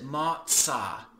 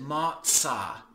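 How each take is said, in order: First: The middle consonant is a 'ts' sound. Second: The same.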